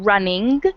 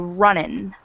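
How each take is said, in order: First: The ending is said with a full ng sound. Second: The ending is said as in, without the g. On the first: This is the standard form. "instead of saying running" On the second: This is casual slang. "they take the G off of ing words"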